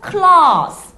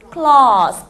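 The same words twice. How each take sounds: First: Claws with a long drawn-out vowel, slow and loud. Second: Claws again, vowel held long; claws repeat. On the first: Teacher stretching claws for learners, slow and long. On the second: Teacher repeating claws for the class, long vowel. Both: Shown as a demonstration. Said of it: "좀 길게 발음을 느려서".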